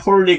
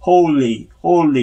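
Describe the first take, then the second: First: Holy as Koreanised 홀리, short first vowel; the mistaken holy with a short o; wrong holy. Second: Holy with the tongue pushed forward for L; long o into a clear L in holy. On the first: Teacher warning learners, mistaken Korean-style holy. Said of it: "holy 그러면 안 돼요". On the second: Teacher explaining the L, tongue forward in holy. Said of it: "혀를 내밀면서". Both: Shown as a demonstration.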